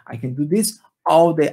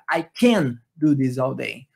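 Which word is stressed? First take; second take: all day; can. First: The stress falls on "all day". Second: The stress falls on "can". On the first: "onde ficou a palavra tônica aqui, ó, all day" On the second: "colocar o can como a palavra tônica"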